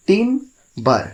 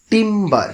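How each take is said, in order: First: timber high, broken with a pause between টিম and বার; টিম, short silence, then বার for timber; split in two syllables. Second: timber high and deliberate, held together as one word; word sounded out. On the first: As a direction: separate the two beats of timber clearly. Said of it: "টিম এবং বার". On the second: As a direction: clear teacher's timber, both syllables joined. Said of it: "এই দুটো সিলেবলকে". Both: Shown as a demonstration.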